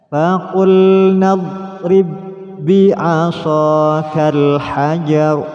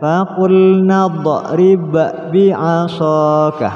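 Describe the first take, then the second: First: The two b sounds merge into one doubled b. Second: The first b bounces before the second b. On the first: The speaker calls it right. "langsung ditasydidkan" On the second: The speaker calls it wrong. "Tidak boleh dibaca"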